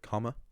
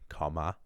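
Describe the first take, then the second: First: The final vowel is a reduced schwa. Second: The final vowel is a full, clear a. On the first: "when you say the word comma" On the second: "if you really wanted to overpronounce it"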